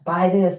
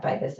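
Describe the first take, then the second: First: Mock commercial pitch, a bit louder; pushy ad voice. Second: Fading ad voice. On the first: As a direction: toss it out like an ad barking at you. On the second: Retold or imitated. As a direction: let the ad echo die away. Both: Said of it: "commercials just being thrown at us".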